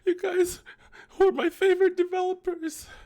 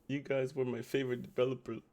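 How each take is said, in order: First: It is read in a put-on sad voice. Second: It is read in a normal voice.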